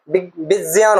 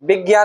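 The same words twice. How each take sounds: First: The middle cluster is said with a j sound. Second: The middle cluster is said without a j sound. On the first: The speaker calls it right. "वो विज्ञान होता है। इसका ज्या ठीक उच्चारण होता है।" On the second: The speaker calls it wrong. "विज्ञान नहीं होता है"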